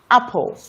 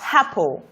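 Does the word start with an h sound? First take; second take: no; yes. First: The word starts directly with the vowel. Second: An h sound is added before the vowel. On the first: The speaker calls it right. "as against apple" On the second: The speaker calls it wrong. "Someone with an affectation will say apple"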